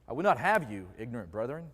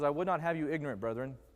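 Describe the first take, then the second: First: It is read with a changed, joking inflection. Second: It is read with its ordinary inflection. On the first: "with different inflection" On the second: "there's a passage in the Bible that says"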